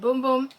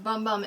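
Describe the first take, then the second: First: The vowel is long, like in 'boom'. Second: The vowel is short, like in 'bum'. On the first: The speaker calls it right. "they did say it is pronounced Boom Boom" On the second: The speaker calls it wrong. "I've heard it pronounced Bum Bum"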